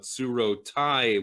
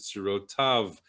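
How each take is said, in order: First: The word ends with the syllable 'tai'. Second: The word ends with the syllable 'tav'. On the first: This is the reading as it is written in the scroll. The speaker calls it wrong. "it looks like to, uh, tsuro tai with a yud on the end" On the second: This is the traditional corrected reading. The speaker calls it right. "there should be a vav on the end. So you're supposed to read it as"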